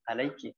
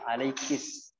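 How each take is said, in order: First: It ends in a vowel after the k. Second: It ends with an added s sound. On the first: This is the usual form. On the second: This is how some tribes say it. "mereka bisa menggantinya dengan sin"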